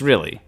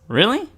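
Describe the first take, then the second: First: The pitch falls at the end, like a statement. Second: The pitch rises at the end, like a question. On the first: It simply confirms the previous statement. The speaker calls it right. "That's what I meant to" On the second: It sounds like a surprised question. The speaker calls it wrong. "make the really sound like a question"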